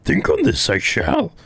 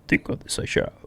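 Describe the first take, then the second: First: The put-on character voice sounds closer and more convincing. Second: The put-on character voice sounds weak and unconvincing. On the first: The speaker calls it right. "There we go, a little better" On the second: The speaker calls it wrong. "It's always so hard doing that voice"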